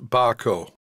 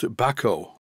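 First: The name sounds like 'Barco'. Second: The name sounds like 'Baco'. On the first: This is how the speaker usually says it. The speaker calls it wrong. "which I pronounce Barco" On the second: This is how a Swedish speaker says it. The speaker calls it right. "according to this viewer from Sweden, it is pronounced Baco"

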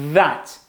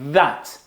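First: The th is made with the tongue forward. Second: The th is made with the tongue forward.

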